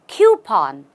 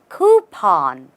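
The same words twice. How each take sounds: First: The word starts with a 'kyoo' sound. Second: The word starts with a 'koo' sound. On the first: The speaker calls it wrong. "Usually people say coupon or coupon, but there is no Q here" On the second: The speaker calls it right. "The simplest way to say this word and the right way"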